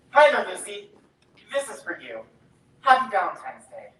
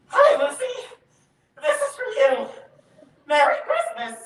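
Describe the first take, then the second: First: Said in the usual way. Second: Much higher, louder, quavering greeting that cracks with nerves; nervous freeze. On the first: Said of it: "Let's see if you just don't get nervous". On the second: Real, not acted. Boy finally handing the girl a valentine, panicky nervous blurt.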